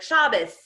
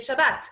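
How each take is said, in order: First: It is said in the American Hebrew way. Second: It is said in the speaker's own Hebrew way.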